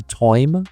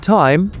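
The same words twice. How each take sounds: First: TOIM with a Devonian wide "oy" vowel; Devon accent. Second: Said in the usual way. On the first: Shown as a demonstration. Teacher showing learners the Devon vowel, Devon accent. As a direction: say "toim" as Devon speakers say time. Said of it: "with a wider vowel". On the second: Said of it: "might come closer to toim".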